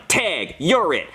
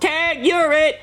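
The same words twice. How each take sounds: First: Slow, smug delivery; smug deadpan tag. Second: Put-on high, gleeful kid's shout; kid yelling tag. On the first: Retold or imitated. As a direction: draw it out with cold satisfaction. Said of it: "and I'm like". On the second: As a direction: yell it like a cheeky kid tagging someone. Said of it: "And he yells".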